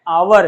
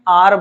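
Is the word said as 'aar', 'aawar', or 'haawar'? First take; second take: aawar; aar. First: It starts with a vowel, two syllables. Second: It starts with a vowel, one syllable. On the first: "आवर है" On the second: "modern technique में आर बोलते हैं"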